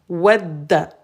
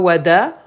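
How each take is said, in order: First: The d sound is doubled and held longer. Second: The d sound is short and single. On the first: The speaker calls it right. "on a shadda, donc on appuie, on insiste" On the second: The speaker calls it wrong. "C'est pas wada"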